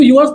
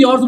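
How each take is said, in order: First: "yours" split as "yoo-ars"; spelling pronunciation. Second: "yours" as one syllable, "yors"; correct pronunciation. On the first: Teacher showing pupils how not to say it, "yours" as "yoo-ars". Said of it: "इसको yours नहीं बोलते". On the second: Teacher showing pupils the spoken form, "yours" as one-syllable "yors". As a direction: say "yours" like "yors", rhyming with "doors". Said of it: "yours बोलते". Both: Shown as a demonstration.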